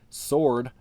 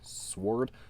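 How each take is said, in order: First: The W sound is silent in the word. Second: The W sound is pronounced in the word. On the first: The speaker calls it right. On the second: The speaker calls it wrong.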